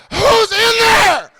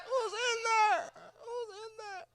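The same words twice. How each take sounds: First: High, slow drawn-out call; echoing call. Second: High, slow, very faint repeats; fading echo. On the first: Worried comic calls inside, long echoing holler. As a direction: holler it high and stretched into a cavern. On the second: Comic's question bounces back, fading echo. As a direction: let it die away high and tiny. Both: Acted. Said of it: "First pussy echo".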